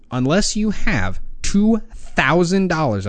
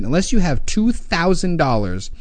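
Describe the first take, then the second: First: "two thousand dollars" slowed way down, pushed; emphasis on two thousand. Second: Said in the usual way. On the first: Shown as a demonstration. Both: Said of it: "I say that with emphasis".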